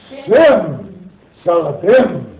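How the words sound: It is said firmly, with conviction.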